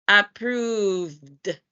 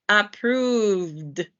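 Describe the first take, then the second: The two takes are said the same way.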